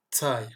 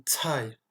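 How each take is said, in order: First: "tai" opening on an unaspirated dz; D plus Z starting "tai". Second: "tai" as "tsaï" with a strong puff; hissed, aspirated ts starting "tai". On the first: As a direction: say "tai" as "dzaï", no puff. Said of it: "comme un D suivi d'un Z". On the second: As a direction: push air out after the ts of "tai". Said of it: "avec une forte expiration". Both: Shown as a demonstration.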